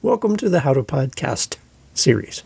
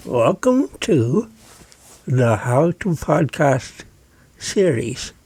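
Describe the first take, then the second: First: Said in the usual way. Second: Slow, garbled words round a pen held in the teeth; muffled demo speech past a pen. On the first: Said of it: "I'm gonna say something like". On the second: Shown as a demonstration. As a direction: talk with a pen clamped across your mouth. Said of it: "I'm putting the pen in my mouth right now".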